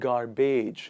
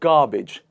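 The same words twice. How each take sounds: First: The ending is said like beige. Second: The ending is said like a short bidge. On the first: The speaker calls it wrong. "they call it beige" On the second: The speaker calls it right. "It becomes bidge"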